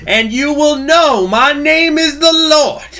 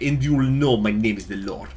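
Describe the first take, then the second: First: High, drawn-out full-force proclamation; booming mock-vengeance shout. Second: Put-on Russian accent at everyday volume. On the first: Streamer crowns a speech on executing traitors, booming shout. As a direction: bellow it slowly like a judgement. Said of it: "But in a Russian accent". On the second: Streamer redoes the quote for the Republic, Russian accent. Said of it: "in a Russian accent".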